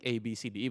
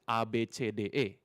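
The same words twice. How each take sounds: First: The letters are named with American English sounds. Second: The letters are named with Indonesian sounds. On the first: "it's not like the Americans, like" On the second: "We we pronounce it"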